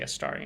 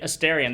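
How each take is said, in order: First: The name is said the non-American way. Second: The name is said the American way. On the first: "I just say Astarion" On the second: "that's even how a lot of Americans seem to pronounce it"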